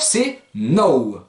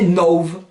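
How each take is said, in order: First: The word ends in an open vowel sound. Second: The word ends in a v sound. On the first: A consonant follows the word. "ça c'est devant consonne" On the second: A vowel follows the word. "devant voyelle, on lui rajoute un petit V"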